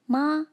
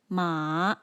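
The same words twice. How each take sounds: First: The pitch stays level throughout. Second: The pitch falls and then rises. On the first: "maintains its pitch from start to finish" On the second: "falls and then rises"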